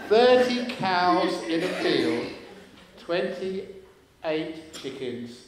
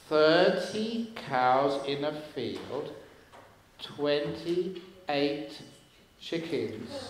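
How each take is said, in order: First: The sentence is spoken at a normal, quick pace. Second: The sentence is spoken slowly and deliberately.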